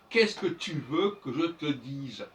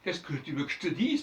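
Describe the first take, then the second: First: The unstressed e vowels are all pronounced. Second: The unstressed e vowels are dropped. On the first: This is French read aloud from writing. "quand c'est le français lu, on va dire" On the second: This is spontaneous spoken French. "Les E ne se prononcent pas. ... ben ça c'est du français euh, parlé"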